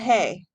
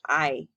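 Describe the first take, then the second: First: It sounds like the English word 'hey'. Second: It sounds like the English word 'eye'. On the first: The speaker calls it wrong. "not hey" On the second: The speaker calls it right. "the pronunciation of this is I"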